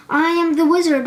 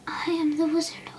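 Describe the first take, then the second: First: Loud, higher roar from a monster; roaring beast. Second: Gently whispered. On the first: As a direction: roar it to scare the Tin Man. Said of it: "roared the beast". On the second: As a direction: ease the words out kindly, barely voiced. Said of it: "she said gently". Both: A narrator's reading.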